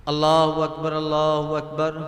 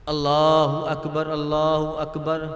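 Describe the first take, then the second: No difference in how they are said.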